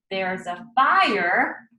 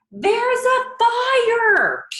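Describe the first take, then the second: First: Said in the usual way. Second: Very high, loud, slow alarm shout; big yell. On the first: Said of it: "the words that the man yelled". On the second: Shown as a demonstration. Teacher acts out the man yelling the fire warning, very high and loud. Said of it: "Let's look at what the man yelled".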